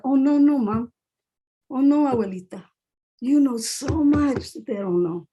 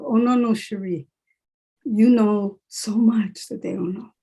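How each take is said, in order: First: Insisting to family. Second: Firm self-talk, stretching the words; reminding herself. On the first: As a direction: gently set mother and grandmother straight, stretching the words. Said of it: "tell our families that". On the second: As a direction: correct yourself, slowly and emphatically. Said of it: "I have to remind myself". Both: Retold or imitated.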